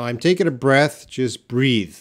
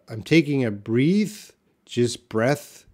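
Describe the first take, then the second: First: "breath" with short e, then "breathe" with long ee; louder, sure short-e "breath" and long-ee "breathe"; corrected pronunciation. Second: "breathe" with long ee, then "breath" with short e; long-ee "breathe" first, short-e "breath" last; swapped pronunciation. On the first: Shown as a demonstration. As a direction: firmly read "breath" to rhyme with death, "breathe" to rhyme with seethe. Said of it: "now I got it". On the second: Real, not acted. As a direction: tentatively read "breathe" rising, then "breath" rhyming with death. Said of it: "Sorry, my text is very small".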